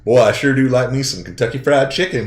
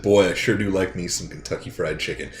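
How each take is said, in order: First: Louder, higher put-on Southern accent; imitated Southern accent. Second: Put-on easy American Southern accent at usual pitch. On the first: Player imitating his English buddy winning the bet, loud Southern accent. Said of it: "This English guy goes". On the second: Player showing his English buddy what to say, understated Southern accent. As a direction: say it in your own Southern accent. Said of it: "say in your Southern accent".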